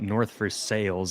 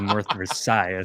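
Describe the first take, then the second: First: Versailles is said with local English sounds. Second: Versailles is said with French sounds. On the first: "in Pittsburgh where we call it North Versailles" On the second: "instead of North Versailles"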